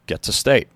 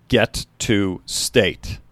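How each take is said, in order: First: Said in the usual way. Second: Each word drawn out and heavy; slow, weighty repeat. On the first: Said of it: "He turned around and said". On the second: A narrator's reading. Coach repeating the goal to his team, slow and weighty. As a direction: let it land slowly, word by word. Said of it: "and then repeated it".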